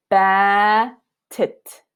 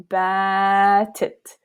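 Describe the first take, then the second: First: "batit" with a long alif and a short kesra. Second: "batit" very slow, alif drawn out, kesra kept short; exaggerated long alif. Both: Shown as a demonstration. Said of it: "how I'm emphasizing the length of alif".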